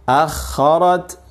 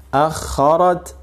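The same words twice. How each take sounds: No difference in how they are said.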